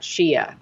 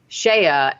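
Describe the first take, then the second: First: The name is said as two syllables, Shia. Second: The name is said as one syllable, Shea. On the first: This is how the woman herself says the name. The speaker calls it right. "and not Shia" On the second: This is how the host said the name. The speaker calls it wrong. "pronounced her name Shea"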